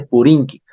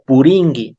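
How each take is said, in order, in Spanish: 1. La consonante después de la n es k. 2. La consonante después de la n es g. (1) "no se dice Puringui" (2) "Se dice Puringui"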